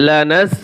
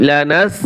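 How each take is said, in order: The two takes are said the same way.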